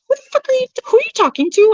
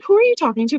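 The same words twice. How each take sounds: First: High-pitched offended retort; retold indignant shriek, way up high; mock outrage. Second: Higher, offended who are you talking to; retold offended question, pitched up; mock indignant question. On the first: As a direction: squeal it like she can't believe the nerve. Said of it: "I didn't say who the fuck". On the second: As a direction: toss it back, playfully affronted. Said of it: "I was like".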